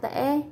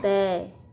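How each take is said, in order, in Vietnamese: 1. Từ này mang thanh ngã, giọng gãy và đi lên có tắc thanh hầu. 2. Từ này mang thanh huyền, giọng thấp và đi xuống. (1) "Ngã" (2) "Thêm dấu huyền ra chữ"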